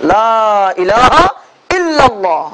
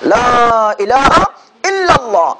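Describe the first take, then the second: The two takes are said the same way.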